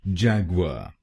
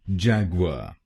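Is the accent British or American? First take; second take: American; American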